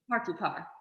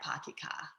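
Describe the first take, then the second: First: It is said in an American accent with a clear R. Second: It is said in a Boston accent. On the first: "Like the R is right there" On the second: "if you're from Boston, it's like"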